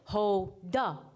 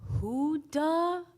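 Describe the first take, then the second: First: The first vowel is an 'oh' sound. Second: The first vowel is an 'oo' sound. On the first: "like Hoda, Yoda, Soda, Pagoda" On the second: "as in Huda man, you the man?"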